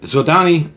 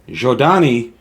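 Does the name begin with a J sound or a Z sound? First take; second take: Z sound; J sound. First: The name begins with a Z sound. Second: The name begins with a J sound. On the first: This is the long-held habitual pronunciation. The speaker calls it wrong. "If I slip and say Zodani every once in a while, please forgive me" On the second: This is the pronunciation given by the book. The speaker calls it right. "I'm saying Jodani, I'm basing it on the pronunciation I got from this book"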